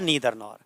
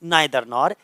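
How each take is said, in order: First: Neither has an 'ee' vowel after the n. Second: Neither has an 'eye' vowel after the n. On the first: "या नीदर nor" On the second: "तीसरा हमारे पास है नाइदर nor या नीदर nor"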